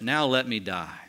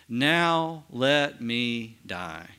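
First: Said in the usual way. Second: Very slow, drawn-out reading of Israel's words. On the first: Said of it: "Now, why does he say that?". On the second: Acted. To Joseph, very slow and moved. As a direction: let each word of "Now let me die," hang, very slowly.

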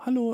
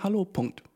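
First: "Hallo" left open, trailing into more talk; offenes Hallo. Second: "Hallo" higher, then falling to a full stop; Hallo mit Punkt. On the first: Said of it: "So nicht sagen". („Hallo“ offen, ohne Punkt) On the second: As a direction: finish "Hallo" as a closed statement. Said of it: "So nicht sagen ... sondern". („Hallo“ abgeschlossen, mit Punkt) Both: Shown as a demonstration.

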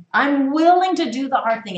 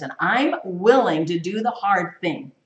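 First: "willing" hit higher and louder, the whole line pressed hard; emphatic repeat. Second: Said in the usual way. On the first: Shown as a demonstration. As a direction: drive the repeat home with force.

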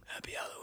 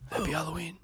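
First: The greeting fades to an almost voiceless rasp, much softer; fading hoarse croak. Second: Strained, much softer croak of a greeting; hoarse sore throat voice. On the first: To the co-host, the sore-throat greeting trailing away to nothing. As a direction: let the voice give out on the last word. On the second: To the co-host, showing how little voice was left, a soft hoarse croak. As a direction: rasp it out like your voice is shot. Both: Retold or imitated. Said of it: "I wanted to scream".

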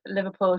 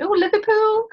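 First: Said in the usual way. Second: Put-on "Liverpool" parroted back in a much higher, louder Scouse accent; mock Scouse accent. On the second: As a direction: imitate a stranger hamming up a Scouse accent. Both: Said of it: "in what they think is a Scouse accent".

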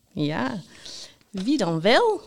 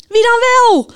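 First: Playful, teasing question with a swooping tune. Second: High, loud impatient shout. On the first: Host Jaap keeps the listeners waiting, teasing. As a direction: tease them with the question, no shout. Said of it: "Zei Jaap plagerig". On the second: Knight demands the winner from the radio, shouting. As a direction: yell the question in exasperation. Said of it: "Riep de ridster". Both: A narrator's reading.

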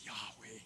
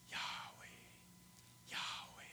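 First: Soft, low "Yahweh"; gentle Yahweh. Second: "Yahweh" breathed out as a whisper. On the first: Shown as a demonstration. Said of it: "a very gentle place". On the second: Retold or imitated. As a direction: whisper the name "Yahweh" softly. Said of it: "it's a name that comes with a whisper".

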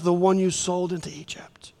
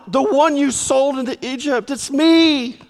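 First: Whispered secret, unvoiced. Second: Higher, pressing urgently; urgent insistence. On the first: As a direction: breathe it so only they hear. Joseph's secret whispered to brothers. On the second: Acted. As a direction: convince them it is really him. Joseph insisting to stunned brothers.

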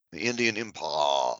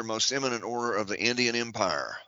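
First: Lower, drawn-out upper-class British voice; posh British drawl, pitched lower; mock posh British drawl. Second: Said in the usual way. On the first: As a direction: lampoon an aristocrat's drawl on the word Empire. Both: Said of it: "That's the way they talk".

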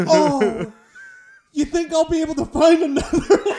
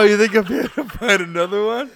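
First: High, loud mocking laugh through the words; mock the customer while laughing; sarcastic laughing retort. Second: Higher, laughing mock retort; laughing sarcastic echo. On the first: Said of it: "He's like". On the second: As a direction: repeat the retort through laughter. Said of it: "Oh no".

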